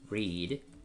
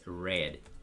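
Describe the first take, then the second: First: The vowel is a long ee sound. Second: The vowel is a short e sound. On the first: It is the present tense. "como para alargar la i" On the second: It is the past tense. "like the color red"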